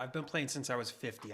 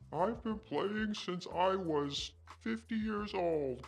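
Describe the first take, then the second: First: It is said in his normal voice. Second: It is said in a put-on elderly voice.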